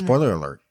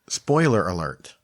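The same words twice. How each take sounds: First: It is said at a faster pace. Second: It is said at a slower pace.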